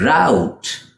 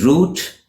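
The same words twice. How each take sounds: First: "route" said like rout; American "route", rhyming with out; American pronunciation. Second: "route" said like root; British "route", rhyming with boot; British pronunciation. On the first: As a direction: give "route" an ow vowel. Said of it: "in the U S". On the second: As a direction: give "route" a long oo. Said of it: "in the U K". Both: Shown as a demonstration.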